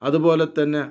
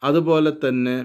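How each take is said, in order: Both takes have the same delivery.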